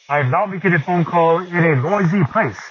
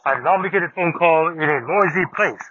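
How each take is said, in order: First: The voice sounds natural, with more background noise. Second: The voice sounds robotic, with less background noise. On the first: "sounded more natural in a quiet setting, but in challenging, noisy conditions, it definitely needs more work" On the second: "had better background noise cancelling, although my voice did sound more robotic"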